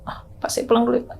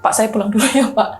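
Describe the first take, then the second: First: It is said weakly, like someone in pain. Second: It is said in a normal voice.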